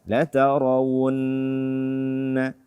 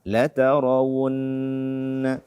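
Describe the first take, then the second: The two takes are said the same way.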